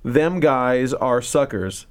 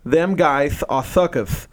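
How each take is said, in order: First: The s sounds are clear, without a lisp. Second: The s sounds are lisped, like th. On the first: "I'm trying to read it without the lisp" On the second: "But then it's written"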